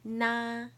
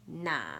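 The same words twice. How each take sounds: First: It is said with the first tone. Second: It is said with the third tone.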